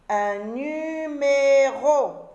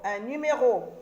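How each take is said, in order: First: Numéro étiré, plus fort et lent; découpe numéro en syllabes, lentement; très lent, syllabé. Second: Said in the usual way. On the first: Shown as a demonstration. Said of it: "syllabé puis normal". (dire « numéro » syllabe par syllabe) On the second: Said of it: "repris normalement".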